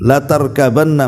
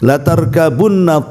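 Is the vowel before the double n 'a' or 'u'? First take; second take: a; u. First: The vowel before the double n is a. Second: The vowel before the double n is u. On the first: It is addressed to the Prophet. "kalau dibaca fathah" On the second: It is addressed to humankind itself. "menggunakan dhammah"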